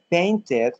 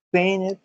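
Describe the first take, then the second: First: "painted" said as PAIN-ted; a hard T opening the last syllable of "painted"; clear T. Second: "painted" said as PAIN-ed; skipped T. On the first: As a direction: sound the T fully in "painted". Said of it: "yo digo ted". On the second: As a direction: drop the middle T of "painted". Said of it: "si quiero me salto la T". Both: Shown as a demonstration.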